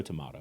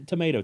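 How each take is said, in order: First: "tomato" with a broad AH in the middle, tuh-MAH-toh; British pronunciation of tomato. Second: "tomato" with a long AY in the middle, tuh-MAY-toh; American pronunciation of tomato. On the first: Co-host giving the other option, "tomato" as tuh-MAH-toh. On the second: Co-host offering either option for a company name, "tomato" as tuh-MAY-toh. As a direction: say "tomato" with MAY as the stressed syllable. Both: Shown as a demonstration. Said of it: "It's e-, either tomato, tomato".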